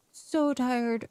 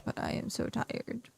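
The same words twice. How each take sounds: First: Said in the usual way. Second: Breathy near-whisper, softer; whispered tired. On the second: Real, not acted. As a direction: sigh it out, too tired for voice. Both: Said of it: "So tired, so exhausted".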